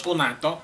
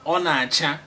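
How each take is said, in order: First: Ọ na-atọ with a t sound in place of ch; the wrong version, ọ na-atọ; ọ na-atọ, t replacing ch; wrong pronunciation. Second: Ọ na-acha, the ch crisp as in church; Ọ na-acha with ch, never t; right pronunciation. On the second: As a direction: say Ọ na-acha with a clear ch sound. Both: Shown as a demonstration. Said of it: "not ọ na-atọ".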